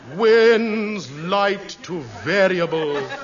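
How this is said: It is said in a grave, tragic tone.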